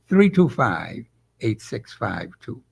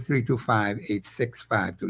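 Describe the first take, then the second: First: The digits are read at a slower pace. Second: The digits are read at a normal, quicker pace.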